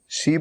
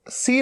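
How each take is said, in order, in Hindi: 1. यह शब्द sh ध्वनि से शुरू होता है। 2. यह शब्द s ध्वनि से शुरू होता है। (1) "शी बोलना है" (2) "सी नहीं बोलना है"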